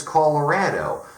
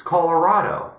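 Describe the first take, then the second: First: Colorado as color-RAD-oh, short a; disputed pronunciation. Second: Said in the usual way. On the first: Shown as a demonstration. Challenging who says it, Colorado as color-RAD-oh. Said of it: "It sounds stupid". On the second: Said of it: "It's Colorado".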